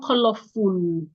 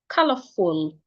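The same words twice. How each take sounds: First: The last syllable has a long oo vowel. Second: The last syllable has a short vowel. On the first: The speaker calls it wrong. "It is not colorful" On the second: The speaker calls it right. "full, full"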